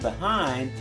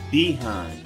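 First: The word has the general American stress pattern. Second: The word has the Southern stress pattern. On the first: "Instead of saying behind" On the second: "the stress of the word"

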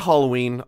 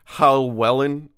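First: The name sounds like the English word Halloween. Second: The name sounds like Hall-wellen, with no ee sound. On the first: The speaker calls it wrong. "I know that's not how you say it" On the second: The speaker calls it right. "It's Hallwellen"

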